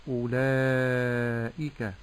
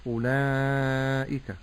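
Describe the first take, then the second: First: أولئك slow, thin madd and clear kasra on the hamza; correct pronunciation. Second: أولئك pushed through the nose, slow; nasal mispronunciation. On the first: Sheikh modelling the correct أولئك, slow. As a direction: say أولئك slowly from the throat. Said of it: "فأقول أولئك". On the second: Sheikh imitating reciters who nasalize the vowels. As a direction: say أولئك nasally, on purpose wrong. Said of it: "يخرج هذه الحروف من الخيشوم". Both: Shown as a demonstration.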